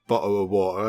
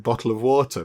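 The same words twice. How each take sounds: First: It is said in a stereotyped British way. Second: It is said with every written letter sounded. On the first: "a little bit of a stereotypical thing that sort of British people are supposed to say" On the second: "I say bottle of water, because that's what the letters are"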